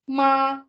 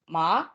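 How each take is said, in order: First: The pitch stays level and high throughout. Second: The pitch rises from mid to high. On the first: It means mother. "in the first tone, which is the flat tone" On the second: It is the name of a crop. "in the second tone, which is the rising tone"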